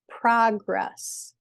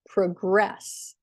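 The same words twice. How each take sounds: First: The stress is on the first syllable. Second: The stress is on the second syllable. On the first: It is used as a noun. "as a noun, the first syllable is stressed" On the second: It is used as a verb. "As a verb, the second syllable is stressed"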